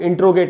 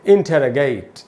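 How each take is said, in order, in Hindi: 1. इसे 'intro-gate' की तरह बोला जाता है, एक अक्षर कम। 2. इसे 'inter-o-gate' की तरह बोला जाता है, अतिरिक्त स्वर के साथ। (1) "इसको इंट्रोगेट नहीं बोलेंगे" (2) "इसका सही उच्चारण है इंटेरोगेट"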